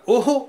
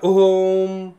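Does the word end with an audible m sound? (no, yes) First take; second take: no; yes. First: The word ends without any m sound. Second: The word ends with a clear m sound. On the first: "इस उच्चारण में म नहीं लगाते हैं" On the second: "जो ओम पूरा होता है ना"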